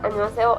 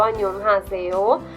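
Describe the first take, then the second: First: It is said quickly with sounds run together. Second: It is said slowly with every sound pronounced. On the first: "a la hora de ellos hablar rápido" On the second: "se leen como si leyeran toda la palabra"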